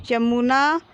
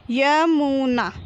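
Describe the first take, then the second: First: Said in the usual way. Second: Slow, stretched य, मु, ना, falling at the end; drawn-out teaching reading of Yamuna; syllable by syllable. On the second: Shown as a demonstration. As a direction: sound out Yamuna piece by piece. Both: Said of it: "तो हम इस प्रकार पढ़ेंगे".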